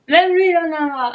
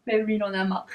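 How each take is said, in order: First: Exasperated repeat. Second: Said in the usual way. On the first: Shown as a demonstration. (répété, plus fort et exaspéré)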